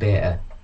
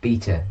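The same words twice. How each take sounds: First: The first vowel sounds like 'bay'. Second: The first vowel sounds like 'bee'. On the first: The speaker calls it wrong. "not beta. It's not B A T A. why do Americans say beta" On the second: The speaker calls it right. "It's beta, when it's B E T A"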